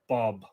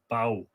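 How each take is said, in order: First: The name ends with a b sound, like 'Bob'. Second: The name ends in a vowel, like 'bow'. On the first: This is the pronunciation the speaker habitually uses. "I always say uh, Bob" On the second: This is the modern Irish pronunciation. "in modern Irish you would pronounce it bow"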